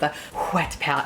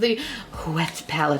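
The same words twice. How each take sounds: First: Wet starts with a plain 'w' sound. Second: Wet starts with a breathy 'hw' sound.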